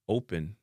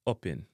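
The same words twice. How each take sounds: First: "open" as "oh-pen"; English pronunciation. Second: "open" as short "op-en"; Jamaican pronunciation. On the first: Teacher giving the English word first, "open" as "oh-pen". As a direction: say open with a gliding long O. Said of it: "in a English". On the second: Teacher giving the Jamaican version, "open" with hard O. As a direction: clip the O of open hard and pure. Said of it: "in a Jamaican". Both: Shown as a demonstration.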